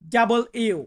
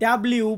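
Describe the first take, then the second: First: It is said fully in three syllables. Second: It is squeezed into two syllables. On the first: The speaker calls it right. "সঠিক উচ্চারণটা হবে ডাবল ইউ" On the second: The speaker calls it wrong. "আমরা ডাব্লিউ বলি"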